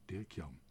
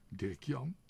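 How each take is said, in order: First: Said in the usual way. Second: Higher, rising questioning tone; name lifted into a question; surprised question. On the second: A narrator's reading. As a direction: echo the name in puzzled surprise. Girl puzzles over the signature.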